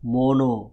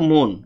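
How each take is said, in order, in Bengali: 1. শব্দটি শেষ হয়েছে যুক্ত করা o স্বরধ্বনি দিয়ে। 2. শব্দটি শেষ হয়েছে শেষের n ব্যঞ্জন দিয়ে। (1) "তাহলে উচ্চারণটা কি হয়ে যাবে" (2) "কি লিখলাম"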